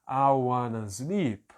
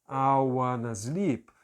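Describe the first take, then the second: The two takes are said the same way.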